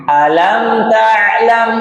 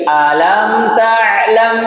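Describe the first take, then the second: No difference in how they are said.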